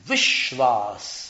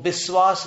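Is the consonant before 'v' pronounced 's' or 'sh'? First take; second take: sh; s. First: The word is said with a 'sh' sound. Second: The word is said with an 's' sound. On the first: "ये उसका उच्चारण है" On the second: "श का स कर दिया"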